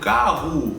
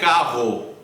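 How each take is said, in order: First: The final vowel sounds like a reduced U. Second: The final vowel sounds like a full O. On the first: This is how most speakers normally say it. "então esse O vira U. Eu estou dizendo carro" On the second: Only some uncommon dialects say it this way. "vão dizer carro, carro, com a letra O"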